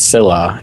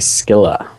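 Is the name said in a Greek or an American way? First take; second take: American; Greek. First: The name is said the plain American way. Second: The name is said the fancy Greek way. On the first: The speaker calls it wrong. "she says it's Scylla, even though that's wrong" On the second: The speaker calls it right. "The fancy pronunciation is actually Scylla"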